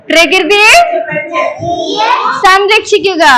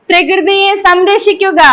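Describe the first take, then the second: First: Firmer call, broken in two for echoing; loud slogan call-out. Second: Slogan led in one smooth run; slogan call-out. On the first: Teacher demanding more volume from children, calling out the slogan firmly. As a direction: call it out phrase by phrase, rising midway. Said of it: "ഉറക്കെ പറ". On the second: Teacher leading children in a nature slogan, called in one go. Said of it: "അപ്പൊ ഉറക്കെ പറയണേ". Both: Shown as a demonstration.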